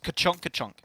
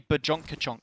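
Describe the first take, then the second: First: The first word begins with a K sound. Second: The first word begins with a B sound. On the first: The speaker calls it right. "It's not" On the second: The speaker calls it wrong. "Like you put a B in there"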